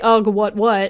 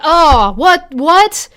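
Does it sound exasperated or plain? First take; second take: plain; exasperated. First: It sounds plain, without much emotion. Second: It sounds exasperated and emotional.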